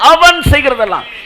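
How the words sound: The first word அவன் is strongly emphasized. Only that particular person, not everyone. The speaker calls it right. "நீங்களா அவனுக்கு வந்து போக்கஸிங் கொடுக்குறீங்க"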